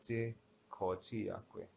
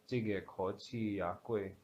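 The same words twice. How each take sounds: First: "ji kochi ya gui" said softer, classifier dropped; wrong form without classifier. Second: "jige kochi ya gui" said slowly with jige first; slow careful demo of "jige kochi ya gui", classifier kept; correct: jige with classifier. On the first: Teacher shows the mistake students must avoid, softer. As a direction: show the wrong form, "ji" instead of "jige", a bit softer. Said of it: "You cannot say". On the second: Teacher models the correct sentence, slow and careful. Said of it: "It has to be jige". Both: Shown as a demonstration.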